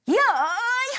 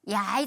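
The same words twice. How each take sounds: First: It is said with strong force and energy. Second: It is said plainly, without extra force. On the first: "힘 주면서 하는 거지" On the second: "그냥 야이 하겠어요"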